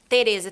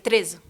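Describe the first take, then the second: First: Every syllable is pronounced in full. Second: The first vowel is dropped entirely. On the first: This is the Brazilian way of saying it. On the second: This is how people in Portugal say it.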